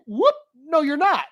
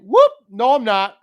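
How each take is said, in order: First: Even higher teasing replay of the whoop; higher mock whoop. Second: High, loud teasing whoop at mom's slip; mock whoop. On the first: Replaying mom's words to her, a higher teasing whoop. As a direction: exaggerate her words back at her. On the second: To mom on the phone, a high loud mock whoop. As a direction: catch her out playfully.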